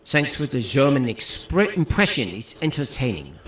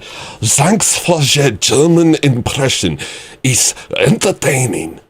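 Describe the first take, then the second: First: German impression. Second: Slow mock German accent, higher; hammed-up German accent; German impression. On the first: Shown as a demonstration. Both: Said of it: "whose German impression is better?".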